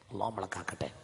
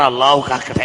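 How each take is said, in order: First: Softly murmured blessing; hushed prayer before the call. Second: Louder blessing called out; called-out prayer line. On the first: Real, not acted. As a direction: say it low under the breath. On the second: Shown as a demonstration. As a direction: lift the voice so all repeat. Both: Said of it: "ഉറക്കെ പറ".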